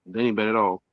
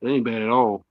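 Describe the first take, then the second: No difference in how they are said.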